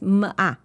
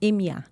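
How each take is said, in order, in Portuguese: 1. Cada letra é dita pelo seu som. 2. Cada letra é dita pelo nome. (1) "ela faz M A" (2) "Ela não faz M A"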